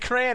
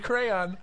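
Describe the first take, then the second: First: It is said as one short syllable. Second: It is said as two full syllables. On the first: The speaker calls it wrong. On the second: The speaker calls it right.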